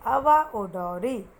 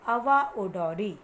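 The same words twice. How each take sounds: First: अवा ओडोरी stretched slowly and louder; teacher models अवा ओडोरी for repetition; slow careful pronunciation. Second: अवा ओडोरी said slowly and louder; teacher models अवा ओडोरी; slow careful pronunciation. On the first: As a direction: say अवा ओडोरी slowly, each syllable clear. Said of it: "एक बार मैं फिर से बोलूँ, आप ध्यान से सुनना". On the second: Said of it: "मेरे पीछे बोलने की कोशिश करना". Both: Shown as a demonstration.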